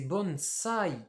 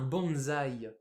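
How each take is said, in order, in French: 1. Il est prononcé avec une prononciation japonaise. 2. Il est prononcé avec une prononciation française. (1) "en japonais, c'est bonsai" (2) "nous on appelle ça un bonsaï"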